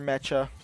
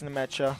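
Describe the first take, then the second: First: The name begins without an N sound. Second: The name begins with an N sound.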